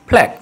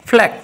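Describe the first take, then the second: No difference in how they are said.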